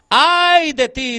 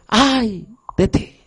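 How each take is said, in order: First: Slow, high mournful wail for God; lamenting cry. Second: Slow, grieving cry of God; mournful lament. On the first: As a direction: cry out the woe slowly, grieving. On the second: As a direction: let the woe weep out slowly. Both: Acted. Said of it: "Dios llora en ese momento".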